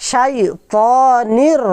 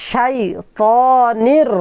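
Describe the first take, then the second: No difference in how they are said.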